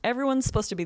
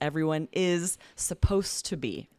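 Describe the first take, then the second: First: The words are collapsed and run together quickly. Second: The words are said fully and separately.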